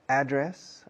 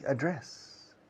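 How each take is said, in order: First: The stress is on the first syllable. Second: The stress is on the second syllable. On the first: "acentuando la primera sílaba" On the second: "acentuando totalmente la segunda"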